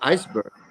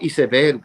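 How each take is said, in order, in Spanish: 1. La palabra se pronuncia con sonidos ingleses. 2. La palabra se pronuncia con sonidos españoles. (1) "decimos iceberg, porque es el nombre inglés" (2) "no decimos iceberg"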